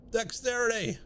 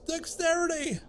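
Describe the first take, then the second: First: A higher, gleeful call of Dexterity; excited cheer. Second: Dexterity called out much higher, near squealing; rising excitement. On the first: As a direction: celebrate the stat boost. Gleefully counting stat gains. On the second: Gleefully counting stat gains, building. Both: Real, not acted.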